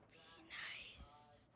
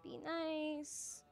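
First: Unvoiced hushed whisper of be nice. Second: Said in the usual way. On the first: Real, not acted. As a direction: breathe be nice without voice. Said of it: "Be nice. (said plainly first)". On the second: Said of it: "Be nice. (whispered repeat)".

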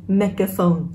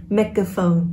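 No difference in how they are said.

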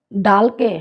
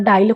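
First: Said in the usual way. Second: ডাইল with an i glide before l; Sylheti pronunciation. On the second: Shown as a demonstration. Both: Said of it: "আমরা ডাইল কই সিলেটি".

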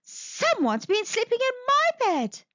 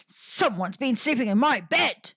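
First: Higher, motherly bear voice. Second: Grunting Father Bear. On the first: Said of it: "said Mother Bear". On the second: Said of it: "grunted Father Bear". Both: Acted.

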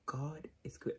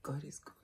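First: Whispered, holding back tears; tearful whisper. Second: Holding back tears. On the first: Vlogger whispering thanks, close to crying. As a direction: breathe it out through tears. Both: Real, not acted. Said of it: "I don't wanna cry".

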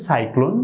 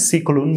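First: "সাইক্লোন" opening on "sai"; correct cyclone pronunciation. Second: "সিক্লোন" with "si" for "sai"; short i opening in "সিক্লোন"; mispronounced cyclone. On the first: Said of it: "উচ্চারণ করতে হবে". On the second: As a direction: say cyclone wrongly as sik-lon. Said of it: "বলেছিলাম". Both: Shown as a demonstration.

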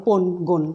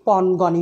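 First: পণ গণ with rounded o, "pon gon"; wrong closed o. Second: পণ গণই with open ɔ, "pawn gawn-i"; open vowels. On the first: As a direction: say পণ গণ with both vowels closed to o. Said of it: "হবে না". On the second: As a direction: say পণ গণই with both vowels wide. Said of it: "এগুলো পণ গণই হবে". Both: Shown as a demonstration.

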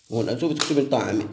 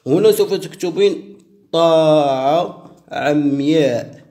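First: Said in the usual way. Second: هنا سوف تكتبين طاعة عمياء drawn out word by word; slow dictation. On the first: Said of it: "the same line said slowly just before". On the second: Shown as a demonstration. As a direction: dictate it slowly so she can write. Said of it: "repeats the line at a quicker pace".

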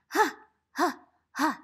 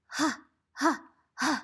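Both takes have the same delivery.

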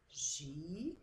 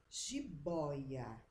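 First: "jiboia" split as ji, bo, ia; syllable by syllable. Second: Said in the usual way. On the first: Shown as a demonstration. Teacher separates the word for pupils, "jiboia" syllable by syllable. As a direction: draw out each syllable of "jiboia" with pauses. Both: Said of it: "as palavras em sílabas".

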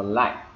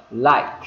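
First: "like" cut off with the final K held back; unreleased K. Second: "Like" said loud with an audible final K burst; loud demo of "Like", final K fully sounded; released K. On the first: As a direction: stop "like" on a silent, unexploded K. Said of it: "có quyền ngắt". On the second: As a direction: pop the K out at the end of "Like". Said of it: "phát cái âm k ra". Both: Shown as a demonstration.

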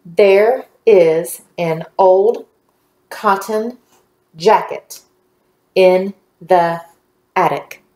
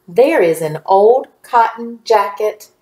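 First: Very slow, a pause after each word; word-by-word reading. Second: Slowish, words joined into a phrase; more connected reading. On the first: Teacher leading the class reading together, slow and word by word. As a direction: read it out one word at a time. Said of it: "Let's read together". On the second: Teacher rereading with the class one more time, measured and connected. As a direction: read it along smoothly at a measured pace. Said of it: "Read it with me one more time". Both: Shown as a demonstration.

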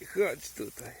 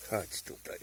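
First: Said in the usual way. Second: Whispered coaxing; unvoiced whisper to the mushroom. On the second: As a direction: breathe it out like luring a pet.

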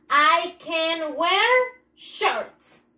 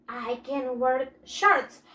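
First: Very slow, each word set apart for the class; slow model sentence. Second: Said in the usual way. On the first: Shown as a demonstration. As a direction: spell it out slowly for the pupils. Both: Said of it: "¿Qué dice mi siguiente oración?".

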